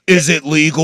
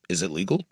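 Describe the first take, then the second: First: It is asked in an angry, mad way. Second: It is asked with genuine curiosity.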